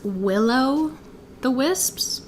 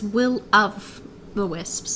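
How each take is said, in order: First: The first part sounds like the word willow. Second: The first part is said as will of. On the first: The speaker calls it wrong. "I totally thought it was willow the wisps" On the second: The speaker calls it right. "but it's will of the wisps"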